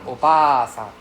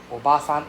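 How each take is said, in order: First: Obasan with a drawn-out BA; long A. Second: Obasan with a short, quick BA. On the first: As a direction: hold the middle A of Obasan long. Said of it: "the long dragging sound". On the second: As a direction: keep the middle A of Obasan short. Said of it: "You can hear the difference". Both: Shown as a demonstration.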